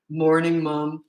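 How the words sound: The voice is low and deep.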